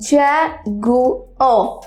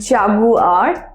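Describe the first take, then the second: First: The word ends without any r sound. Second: The word ends with a sounded r. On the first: The speaker calls it right. "আর এর উচ্চারণটা লাস্টে silent থাকে" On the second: The speaker calls it wrong. "অনেকে এটার উচ্চারণটা করে জাগুয়ার, but it's not that"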